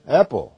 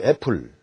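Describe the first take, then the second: First: It is said with English pronunciation. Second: It is said as a Korean loanword. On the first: "영어식으로 발음을 하면" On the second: "외래어, 한국어죠"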